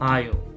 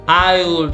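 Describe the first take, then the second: First: The two words are contracted into one syllable. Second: Both words are said in full, unreduced. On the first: The speaker calls it right. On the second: The speaker calls it wrong.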